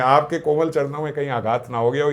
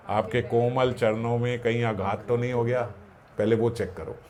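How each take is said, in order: First: Said in the usual way. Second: Softer, tender plea; a touch of humble tenderness; gentle humble concern. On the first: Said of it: "मेरा तो कठोर वक्ष है". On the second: Retold or imitated. The Lord speaks gently to the sage who kicked him, tender and soft. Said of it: "और वो क्या बोल रहे हैं".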